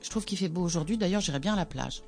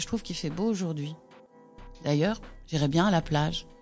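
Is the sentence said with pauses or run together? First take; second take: run together; paused. First: It runs the phrases together without stopping. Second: It pauses at each punctuation mark.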